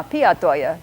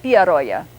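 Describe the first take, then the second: First: PIA TOYA as two words, the T kept; unchanged t. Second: PIAROYA run together, T turned into a tapped r; changed t. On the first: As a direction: say PIA TOYA slowly with a clear T. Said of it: "English speaker's natural inclination would be to say". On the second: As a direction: link PIAROYA as one word, r for T. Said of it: "T of toya will change into a different sound". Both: Shown as a demonstration.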